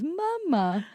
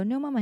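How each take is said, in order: First: Higher, robotic toddler imitation. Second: Said in the usual way. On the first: Mother copying how her son answers her, robotic toddler voice. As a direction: copy a small child sounding out the word. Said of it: "that's how he says it". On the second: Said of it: "And I go".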